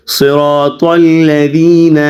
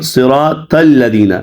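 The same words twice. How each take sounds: First: صراط الذین drawn out slowly with a thick, dark t; correct heavy ta. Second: صراط الذین with a thin t, 'sira-tal-ladina'; wrong light ta. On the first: Teacher models the verse correctly, heavy t in صراط الذین. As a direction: recite صراط الذین slowly, 'sirotol-ladheena', t kept heavy. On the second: Teacher imitates students' common slip, thin t in صراط الذین. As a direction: soften the t in صراط الذین to plain ta. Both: Shown as a demonstration. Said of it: "تو کی بجائے تا پڑھتے ہیں".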